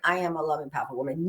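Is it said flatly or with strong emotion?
flatly. It is said flatly, without emotion.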